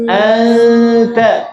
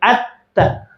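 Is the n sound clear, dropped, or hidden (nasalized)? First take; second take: hidden; dropped. First: The n is a loose nasal sound before t. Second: The n is dropped, leaving a doubled t. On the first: The speaker calls it right. "ini di pertengahan. Renggang, renggang di makhraj ta" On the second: The speaker calls it wrong. "Kalau n-nya dibuang jadi atta"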